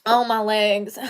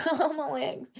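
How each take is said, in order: First: Said in the usual way. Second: Oh, my legs said through a laugh; laughing groan. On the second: Real, not acted. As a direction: laugh at your own stiff legs. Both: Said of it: "sitting in that tiny chair too long".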